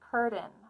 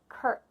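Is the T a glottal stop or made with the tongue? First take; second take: tongue; glottal stop. First: The T is made with the tongue. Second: The T is a stop in the throat. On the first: The speaker calls it wrong. "Those are incorrect examples" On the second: The speaker calls it right. "We stop the air"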